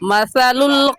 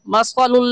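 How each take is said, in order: First: The middle consonant is a soft 'th' sound. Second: The middle consonant is a hissing 's' sound. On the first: The speaker calls it right. "सही है मसलुल" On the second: The speaker calls it wrong. "सा की जगह सीन या स्वाद पढ़ना मसलुल लज़ीना गलत है"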